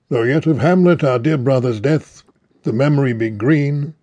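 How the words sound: There are pauses between the short phrases. The speaker calls it wrong. "Pausing at the end of each line always seems natural, but obviously it doesn't sound natural"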